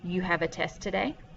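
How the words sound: The voice rises at the end, a question.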